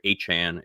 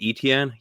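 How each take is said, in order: First: The name is said like the surname Achan. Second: The name is said the old, French-like way. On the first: This is how the player wants his name said. The speaker calls it right. "pronounce it the same as Devin Achan" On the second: This is how people commonly said the name. The speaker calls it wrong. "I always called him Etienne"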